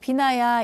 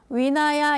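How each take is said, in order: First: The word begins with a b sound. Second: The word begins with a w sound. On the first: "위나야가 아니고 비나야" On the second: "이 V 발음을 그 위라고 해가지고 위나야 이렇게도 이야기를 하는데"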